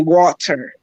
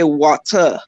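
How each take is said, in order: First: It is said in an American accent. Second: It is said in a Caribbean accent.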